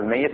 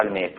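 First: "mayyit", the y doubled. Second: "mayt", the y left single. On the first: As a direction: say "mayyit" in two syllables. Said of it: "البعض يلفظها". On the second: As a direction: say "mayt" as one syllable. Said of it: "والبعض يلفظها". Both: Shown as a demonstration.

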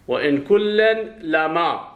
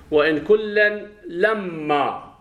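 First: "لما" with a single light m, recited slowly; "وإن كلا لما" drawn out, with "إن" and "لما" unstressed by doubling; light lam-ma reading. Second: "لما" with a held double m, lam-maa; "وإن كلا لما" stretched out, leaning on the doubled m of "لما"; doubled-m reading. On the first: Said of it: "الذين قرأوا بتخفيف إن وتخفيف". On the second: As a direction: recite slowly and higher, doubling the m in "لما". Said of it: "على قراءة من شدد". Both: Shown as a demonstration.

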